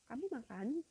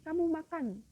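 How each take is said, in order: First: It is said with question intonation. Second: It is said with command intonation.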